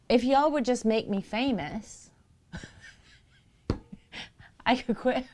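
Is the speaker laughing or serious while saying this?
laughing. It is said breaking into laughter. The speaker calls it wrong. "I can't even say this"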